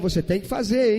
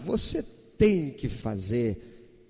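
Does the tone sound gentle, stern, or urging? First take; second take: urging; gentle. First: It sounds urging and insistent, like pressing advice. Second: It sounds gentle and mild, like a suggestion. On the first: It is something that needs to be done. "Você tem uma necessidade de fazer" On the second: It would be good to do it. "É algo que seria bom se você fizesse"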